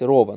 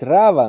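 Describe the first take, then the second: First: The first vowel is pronounced as an 'o'. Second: The first vowel is pronounced as an open 'a'. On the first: The speaker calls it right. "а нужно читать здесь Рова" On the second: The speaker calls it wrong. "они переводят по-сефардски"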